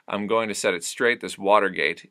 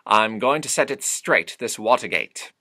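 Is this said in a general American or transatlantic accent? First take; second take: general American; transatlantic. First: It is said in a plain American accent. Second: It is said in a nasal transatlantic accent. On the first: "if we take lyrics" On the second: "it becomes"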